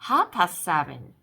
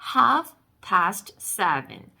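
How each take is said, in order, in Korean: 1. f와 t 소리를 빼고 빨리 말해요. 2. 모든 소리를 다 발음하며 천천히 말해요.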